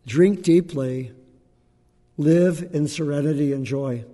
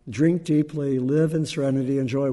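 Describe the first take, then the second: First: Slow, deliberate recitation of the Buddha's line; quoting the Buddha slowly. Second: Said in the usual way. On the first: Retold or imitated. Teacher reciting a line from the Buddha, slow and solemn. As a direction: let "Drink deeply" land slowly and fully. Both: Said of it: "A line from the Buddha".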